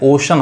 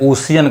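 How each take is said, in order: First: It has two syllables, with a plain 'sh' sound. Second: It has three syllables, with an extra 'ee' sound. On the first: The speaker calls it right. "ओशन होता है सही उच्चारण" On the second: The speaker calls it wrong. "बहुत सारे लोग गलत पढ़ते हैं, ओशियन कहते हैं"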